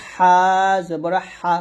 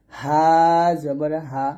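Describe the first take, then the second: First: হা squeezed fine in the throat; narrow, pressed ha. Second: Light, unsqueezed হা; thin ha. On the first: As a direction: press হা through a tightened throat. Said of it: "চিকুন করে চাপ দিয়ে বলতে হবে". (হা চিকুন চাপ দিয়ে) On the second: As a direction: let হা out lightly with an open throat. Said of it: "হা পাতলা করে". (হা পাতলা করে) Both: Shown as a demonstration.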